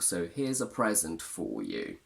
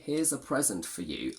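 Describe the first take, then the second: First: 'For' is full and emphasized. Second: 'For' is weak, reduced and unstressed. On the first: "if you want to add some emphasis and affection, it is common to say for" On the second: "I should technically use the weak form"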